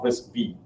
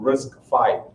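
First: The final part is said as 'vee'. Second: The final part is said as 'five'. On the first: The speaker calls it wrong. "not RISC-V" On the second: The speaker calls it right. "It is pronounced as five"

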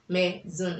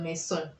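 First: The middle consonant is a buzzing z sound. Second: The middle consonant is a hissing s sound. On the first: The speaker calls it right. "S in between two vowels. Maison instead of maison" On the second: The speaker calls it wrong. "instead of"

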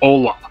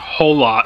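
First: The word starts with no h sound. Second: The word starts with an audible h sound. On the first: The speaker calls it right. "You don't pronounce the H" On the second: The speaker calls it wrong. "It's not Hola"

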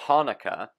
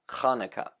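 First: The word begins with a plain, soft h sound. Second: The word begins with a rough sound from the throat. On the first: The speaker calls it wrong. "Americans would say Hanukkah" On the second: The speaker calls it right. "more of a correct pronunciation would be Hanukkah"

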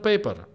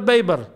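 First: The word begins with a p sound. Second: The word begins with a b sound. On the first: The speaker calls it wrong. "Not the paper" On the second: The speaker calls it right. "because in Arabic they don't pronounce P's"

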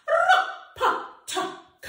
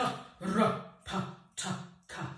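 First: It is said in a high voice. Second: It is said in a low voice.

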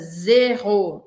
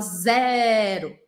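First: The first vowel is closed, final o is strong. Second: The first vowel is open. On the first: This is the French pronunciation. "Um som um pouco mais fechado. E o o tem um peso bem forte" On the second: This is the Portuguese pronunciation. "Em português a gente fala zero"

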